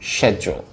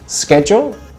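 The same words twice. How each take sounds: First: It is said in a British accent. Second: It is said in an American accent. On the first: "British people should say schedule" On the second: "Americans say schedule"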